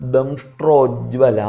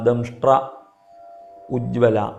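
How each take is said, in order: First: The word parts are merged into one form. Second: The word parts are said as separate pieces.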